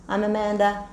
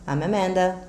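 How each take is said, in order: The two takes are said the same way.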